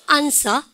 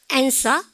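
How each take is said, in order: First: "answer" with a long "ahn" start; British-style "answer", as AHN-suh; British pronunciation. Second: "answer" with a front "a" as in "cat"; American-style "answer", rising; American pronunciation. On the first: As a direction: say "answer" with a broad first A. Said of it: "영국 애들은". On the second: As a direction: say "answer" starting with a front "aen". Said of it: "미국 애들". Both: Shown as a demonstration.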